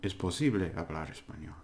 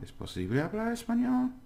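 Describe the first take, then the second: First: The pitch stays flat at the end. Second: The pitch rises at the end. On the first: It is said as a statement. "It's different from" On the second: It is asked as a question. "the intonation goes up like a little curve"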